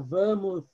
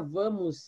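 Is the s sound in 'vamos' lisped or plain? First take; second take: lisped; plain. First: The s sound is made with a lisp. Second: The s sound is a clear hiss. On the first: This is how a tongue-tied friend says it. "ele fala vamos" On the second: This is the word as intended. "se ele vai falar vamos"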